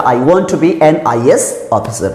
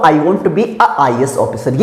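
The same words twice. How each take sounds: First: Slow, careful dictation of the right sentence; correct version. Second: Slow, careful reading of the wrong sentence; wrong version. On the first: Teacher slowly dictating the correct sentence with an. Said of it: "तो जैसे लिखा". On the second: Teacher slowly reading the incorrect sentence with a. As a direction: read it slowly as the example of a mistake. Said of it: "मैं ये नहीं बोल सकता हूँ". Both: Shown as a demonstration.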